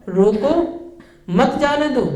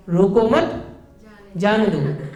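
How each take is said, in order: First: Rising रोको, break, मत जाने दो together; pause after रोको. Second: रोको मत rising together, break, जाने दो falling; pause after मत. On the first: Teacher contrasting two meanings of four words, pause after रोको. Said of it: "एक में क्या कह रहा है कि रोक लो उसे". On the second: Teacher contrasting two meanings of four words, pause after मत. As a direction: keep रोको मत as one phrase, then release जाने दो. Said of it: "एक में कह रहा है मत रोकिए उसे". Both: Shown as a demonstration.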